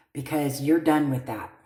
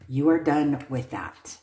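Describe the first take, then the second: First: You're leaned on, the rest falls away; stress on you're. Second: Are leaned on, falling finish; stress on ARE. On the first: Reader to querent, stressing you're firmly. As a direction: push the word you're, then let the line drop. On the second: Reader repeating to querent, stressing are. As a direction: hit the word are to drive it home. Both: Shown as a demonstration.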